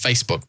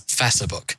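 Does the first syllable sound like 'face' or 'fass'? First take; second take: face; fass. First: The first syllable sounds like the word face. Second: The first syllable has the short vowel of 'mass'. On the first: The speaker calls it right. "not as Facebook" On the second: The speaker calls it wrong. "It pronounces it more like the ACE in macerate"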